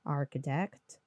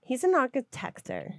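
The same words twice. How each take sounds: First: Architect said properly, ending in "-tect"; correct pronunciation. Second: Architector with an extra "-or" ending, on purpose; playful mispronunciation. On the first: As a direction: say Architect the standard way. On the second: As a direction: say architector wrong as a joke. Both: Shown as a demonstration.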